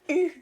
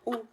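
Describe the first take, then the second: First: The vowel is the front rounded French u sound. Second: The vowel is the back rounded French ou sound. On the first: The speaker calls it right. "elle disait U, maman, U" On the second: The speaker calls it wrong. "J'étais comme ou"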